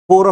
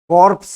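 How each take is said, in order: First: The word ends without p or s sounds. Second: The word ends with audible p and s sounds. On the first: The speaker calls it right. "pronounced as core" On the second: The speaker calls it wrong. "it is not corpse"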